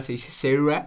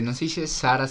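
First: "Sarah" said the English way, SEH-rah; "Sarah" with English vowels, not Spanish "Sara"; English pronunciation. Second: Said in the usual way. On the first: Shown as a demonstration. Retelling the snob's correction, English "Sarah". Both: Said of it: "vi ese video".

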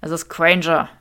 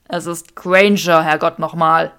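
First: Said in the usual way. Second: Exasperated Draco. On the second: Acted. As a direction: hammer out each word, fed up. Draco exasperated, repeating himself.

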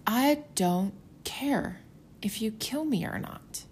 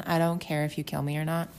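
First: High, slow, calm defiance; defiant quote. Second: Said in the usual way. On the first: Retold or imitated. Abinadi telling the priests he fears nothing, high and slow. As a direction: say it slowly as if nothing scares you. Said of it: "he's like". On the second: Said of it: "Can you imagine saying that".

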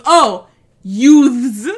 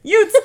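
First: "youths" said properly with th, loud and dawning; "Oh, youths" as sudden understanding; judge finally gets it. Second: "Utes!" called out high and loud, Utes with no th; Joe Pesci Utes. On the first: Judge finally understands Vinny, "youths" with clear th. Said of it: "he goes". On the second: Lawyer calls the kids "Utes!", a loud New York Utes. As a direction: shout "Utes!" New York style, youths said as Utes. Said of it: "Joe Pesci in his, like, fucking New York". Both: Retold or imitated.

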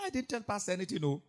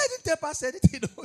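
First: Said in the usual way. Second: High loud protest, breaking into a laugh; loud denial. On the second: Retold or imitated. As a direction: deny it loudly, nearly laughing. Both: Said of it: "The girl was denying".

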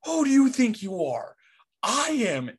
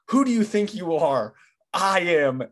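First: Pete Weber's taunt. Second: Raised, higher mock yell of the taunt; half-shouted bowler's boast, imitating; Pete Weber's taunt. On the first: Retold or imitated. Bowler answering the heckling kid after his strike, a high hammed-up shout. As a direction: fling the boast back at the kid, hammed up. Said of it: "turns and looks at the little kid and just goes". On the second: Recalling the bowler's jab at a heckler, a raised mock yell. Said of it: "he says this".

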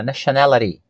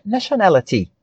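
First: "nationality" in American English, the T softened to a flap; American-accented "nationality" with a tapped T; American pronunciation. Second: "nationality" in British English with a crisp T; British-style "nationality", the T fully sounded; British pronunciation. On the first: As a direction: say "nationality" the American way, ending like "-luh-dee". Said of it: "pra você pegar a pronúncia americana". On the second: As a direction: say "nationality" the British way, ending in a clear "-tee". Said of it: "pra pegar a pronúncia britânica". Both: Shown as a demonstration.

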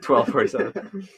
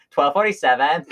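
First: Mocking uptalk. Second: Mocking Valley Girl uptalk, rising; sing-song mock of the cashier, higher. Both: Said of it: "I mockingly went".

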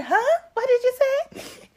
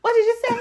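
First: High, loud incredulous question; shocked huh. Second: High, loud confused question; a kid who can't believe what she heard; shocked huh. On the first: Shown as a demonstration. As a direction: replay the confused little girl for the host. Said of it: "Can you do that once again?". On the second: Retold or imitated. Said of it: "I said so loud in front of everybody".

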